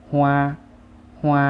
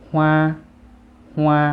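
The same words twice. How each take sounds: First: ฮวา as Vietnamese, held high and loud; Vietnamese pronunciation. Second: ฮวา as Chinese, held high and loud; Chinese pronunciation. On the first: Teacher reads the Vietnamese for flower, Vietnamese pronunciation of ฮวา. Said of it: "ภาษาเวียดก็จะอ่านว่า". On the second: Teacher reads the Chinese for flower, Chinese pronunciation of ฮวา. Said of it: "ภาษาจีนจะอ่านว่า". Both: Shown as a demonstration.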